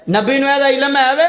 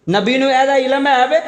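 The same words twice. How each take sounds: First: Higher pitched scornful ਵੇ rising; mocking question. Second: Raised, scornful mock question. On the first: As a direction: repeat the doubter's taunt, rising on ਵੇ. (ਉੱਚੀ ਸੁਰ ਵਿੱਚ ਮਜ਼ਾਕੀਆ ਸਵਾਲ) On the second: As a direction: mimic the doubter with disdain. Mocking the doubter's question. (ਮਜ਼ਾਕ ਉਡਾਉਂਦਾ ਸਵਾਲ)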